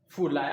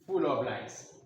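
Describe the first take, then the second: First: The word 'of' is dropped from the phrase. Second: The word 'of' is clearly pronounced in the phrase.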